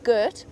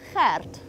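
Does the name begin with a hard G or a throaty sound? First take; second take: hard G; throaty. First: It begins with a hard English G sound. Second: It begins with a throaty ch sound. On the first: The speaker calls it wrong. "We don't say it gert" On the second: The speaker calls it right. "It's that ch sound. ... It's gert"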